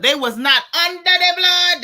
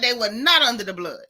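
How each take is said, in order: First: Louder and higher, hammering each word; raised preacher-style emphasis; loud emphatic repeat. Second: Said in the usual way. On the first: Real, not acted. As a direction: declare it like a verdict to the chat. Emphatic repeat of chat comment.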